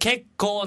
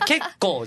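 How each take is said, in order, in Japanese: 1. 'flight cancelled'のピッチアクセントです。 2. 'quite'の単語のピッチアクセントです。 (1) "結構はコケコッコーの結構の方だから、いや、結構ね。" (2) "イントネーション、いや、結構じゃない。"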